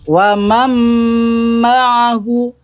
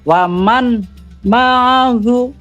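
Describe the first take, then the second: First: The n merges into a doubled m sound. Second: The n is pronounced separately before m. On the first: The speaker calls it right. "Cara membacanya langsung ke huruf mim" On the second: The speaker calls it wrong. "Jadi bukan waman ma'ahu"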